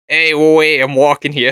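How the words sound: It is said in a Boston accent.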